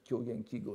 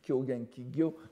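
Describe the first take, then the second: First: The last word is said with a plain 'g' sound. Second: The last word is said with a 'gy' sound. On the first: It is the common way most people say it. "je vous encourage à prononcer comme tout le monde" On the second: The speaker wants to show insider knowledge. "on prononce très souvent lorsqu'on veut être euh, montrer que l'on est au courant"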